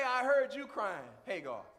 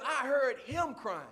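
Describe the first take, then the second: First: Said in the usual way. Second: Slow, with the weight on "him"; stress on him. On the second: Shown as a demonstration. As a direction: land on "him" to show it was the boy God heard. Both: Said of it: "Notice God didn't say".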